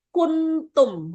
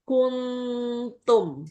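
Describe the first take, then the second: First: The n is pronounced clearly and fully. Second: The n is blurred toward the t. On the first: "kalau dibaca jelas kan kuntum" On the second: "ketika disamarkan"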